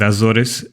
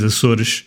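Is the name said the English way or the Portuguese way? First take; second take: English; Portuguese. First: The name is said with English sounds. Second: The name is said with Portuguese sounds. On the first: "let's go with Azores" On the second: "The correct pronunciation is Açores"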